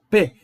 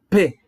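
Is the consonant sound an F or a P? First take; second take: P; P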